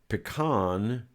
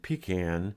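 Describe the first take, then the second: First: It is pronounced the posh, snooty way. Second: It is pronounced the Southern way. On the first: The speaker sounds stuck-up. The speaker calls it wrong. "Pecan is for snooty people" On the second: The speaker is from the South. The speaker calls it right. "pecan is the way we say it down south"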